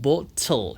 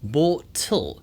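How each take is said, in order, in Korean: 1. 영국식 억양이고, T는 또렷하고 깔끔하게 발음됩니다. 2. 영국식 억양이고, T는 또렷하고 깔끔하게 발음됩니다.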